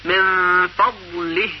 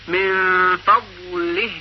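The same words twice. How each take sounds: First: من فضله said very slowly; slow teaching demo of من فضله. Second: من فضله even slower, held; slow repeated model of من فضله; slow repeat demo. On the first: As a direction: drag out من فضله syllable by syllable. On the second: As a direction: stretch من فضله again, very slow. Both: Shown as a demonstration. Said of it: "یا کلمهٔ".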